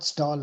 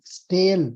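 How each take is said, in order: First: The vowel sounds like 'aw' in 'saw'. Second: The vowel sounds like 'ay' in 'day'. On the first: The speaker calls it wrong. "you're pronouncing it wrongly" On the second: The speaker calls it right. "Stale, not stall"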